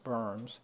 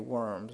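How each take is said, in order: First: The word begins with a V sound. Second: The word begins with a W sound. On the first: This is how the name is really pronounced. The speaker calls it right. "It's actually pronounced berms" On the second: This is how an English speaker would read it. The speaker calls it wrong. "We would say worms"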